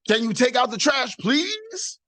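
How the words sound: It is asked in an annoyed, frustrated tone.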